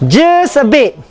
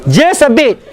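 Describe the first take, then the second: No difference in how they are said.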